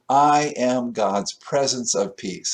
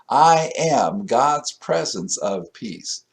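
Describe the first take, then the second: First: It is said plainly, without special conviction. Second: It is said with strong, heartfelt conviction.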